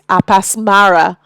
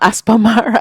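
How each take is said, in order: First: The name begins with the sounds 'Apas'. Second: The name begins with the sounds 'Aspa'. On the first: The speaker calls it right. "it's Apasmara" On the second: The speaker calls it wrong. "I've been calling him by the wrong name"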